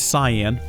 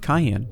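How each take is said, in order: First: The word is said in its standard pronunciation. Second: The word is said in a playful nonstandard way. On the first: The speaker calls it right. "I realize it's it's it's it's cyan" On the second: The speaker calls it wrong. "I call them cayenne because it's fun to bug people"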